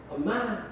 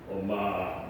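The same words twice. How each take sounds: First: Said in the usual way. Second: 엄마 said much lower in a mock baritone; put-on baritone. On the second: Shown as a demonstration. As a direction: drop 엄마 way down into a deep faked baritone. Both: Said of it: "목소리도 막 바리톤으로 바꾸고".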